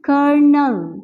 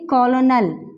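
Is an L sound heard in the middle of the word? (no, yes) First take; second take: no; yes. First: No L sound is heard in the middle. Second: An L sound is pronounced in the middle. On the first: The speaker calls it right. "एल को जो है हमने drop कर दिया है" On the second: The speaker calls it wrong. "हम इसे mostly इस तरह से पढ़ते हैं, ... दिस इज रॉन्ग"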